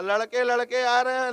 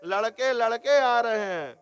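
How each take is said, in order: First: "लड़के लड़के आ रहे हैं" run together fast; quick run-together phrasing. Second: "लड़के लड़के आ रहे हैं" in a measured, evenly phrased run; two-meaning phrasing demo. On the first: Preacher contrasting the two meanings, quick joined phrasing. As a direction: rattle off both "लड़के" without a break. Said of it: "बोलने के तरीके में दोनों में भेद". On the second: Preacher showing one phrase with two meanings, measured phrasing. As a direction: give each "लड़के" its own even weight. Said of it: "बोलने के भेद से". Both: Shown as a demonstration.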